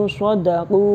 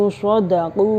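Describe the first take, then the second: Both takes have the same delivery.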